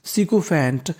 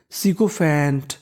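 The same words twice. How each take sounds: First: Said in the usual way. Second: Sikophant said slowly, syllable by syllable; slow teaching read. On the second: Shown as a demonstration. Teacher sounding out a word for students, slowly. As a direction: stretch सिकोफैंट out for the class. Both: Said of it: "तो meaning बन गई".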